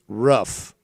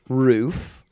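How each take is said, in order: First: The vowel is short, sounding like 'rough'. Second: The vowel is long, like in 'proof'. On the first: The speaker calls it right. "It's roof. ... rough is your roof" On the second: The speaker calls it wrong. "it's not roof, as in what's on top of your house"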